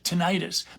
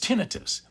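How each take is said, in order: First: The ending sounds like the ending of tonsillitis. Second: The ending does not sound like tonsillitis. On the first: The speaker calls it wrong. "Some people incorrectly pronounce it tinnitus" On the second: The speaker calls it right. "but it's tinnitus"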